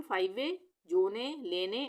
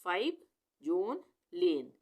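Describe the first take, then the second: First: फाइव वे, जोने, लेने each with an extra "ay" ending; wrong pronunciation. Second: फाइव, जोन, लेन each ending on its consonant; one word at a time, फाइव, जोन, लेन, no final vowel; silent final e. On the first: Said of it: "ऐसे नहीं पढ़ेंगे". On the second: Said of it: "ई का उच्चारण नहीं आएगा". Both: Shown as a demonstration.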